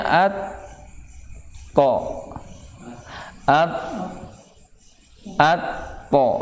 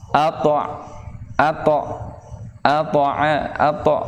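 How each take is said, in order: First: "at to at at to" chopped into separate beats; each "at" and "to" pulled apart with pauses; broken syllables, the wrong way to read it; wrong split reading. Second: "ato" with an extra vowel after the to; "ato" repeated with a full added o; wrong added vowel. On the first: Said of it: "Jangan bacanya". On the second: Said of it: "Ato, nambahin". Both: Shown as a demonstration.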